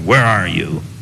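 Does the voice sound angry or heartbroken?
angry. It sounds harsh and angry, like a policeman.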